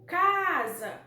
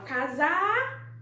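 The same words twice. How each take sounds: First: "casa" with CA stretched long and loud, falling after; stress on first syllable. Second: "casar" with the final ZAR drawn out, louder and rising; stress on the last syllable. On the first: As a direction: hit the CA of "casa" slowly. ("casa" com o CA forte e alongado) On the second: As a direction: say "casar" hitting the end, as a questioning wrong option. ("casar" com a última sílaba forte e esticada) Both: Shown as a demonstration. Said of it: "qual é que a gente fala com maior intensidade".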